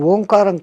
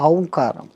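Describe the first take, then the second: First: The word begins with a plain 'oh' vowel. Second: The word begins with a gliding 'ow' vowel. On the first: The speaker calls it wrong. "అది ఓంకారం కాదు" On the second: The speaker calls it right. "ఔంకారం. మనం పలకడమే దాన్ని తప్పు పలుకుతున్నాం"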